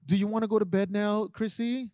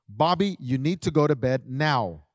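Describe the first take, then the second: First: Overly polite ask. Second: Steady, firm, without anger; firm instruction. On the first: Retold or imitated. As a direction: coax the child gently, as if she gets to choose. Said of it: "we want to be so polite". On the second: Shown as a demonstration. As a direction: give the order plainly and decisively. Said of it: "That's how you need to word it".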